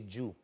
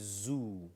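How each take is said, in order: First: The word begins with a j sound. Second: The word begins with a buzzing z sound. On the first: The speaker calls it wrong. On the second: The speaker calls it right. "it's difficult for some of us to say zoo"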